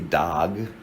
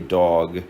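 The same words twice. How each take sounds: First: The vowel is an unrounded open 'ah'. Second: The vowel is a rounded open 'aw'. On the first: The speaker is from elsewhere in the country. "if you're from somewhere else in the country, you might say dog" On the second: The speaker is from New Jersey or New York. "If you're from New Jersey like me or New York, you probably say dog"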